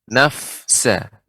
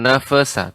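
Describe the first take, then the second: First: The f sound carries an audible breath. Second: The f sound bounces with a jolt. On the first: The speaker calls it right. "hamesnya lebih ditampakkan" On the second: The speaker calls it wrong. "jangan sampai memantul"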